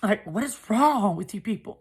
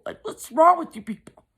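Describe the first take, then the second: First: Said in the usual way. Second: Much higher and louder, cried out in disbelief; exasperated outcry. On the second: Retold or imitated. Narrator cries out at her cruel family in loud disbelief. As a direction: throw the question out in outrage.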